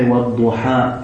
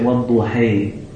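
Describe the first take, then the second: First: The final vowel is an open 'a' sound. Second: The final vowel leans toward an 'e' sound. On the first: "We say, وَالْضُحَى in Hafs" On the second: "It's called imala"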